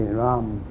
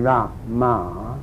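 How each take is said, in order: First: The ma is swallowed into a single syllable. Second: Both syllables ra and ma are said separately. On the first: The speaker calls it right. "you say Ram, and swallow the other one" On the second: The speaker calls it wrong. "So you don't say ra, ma"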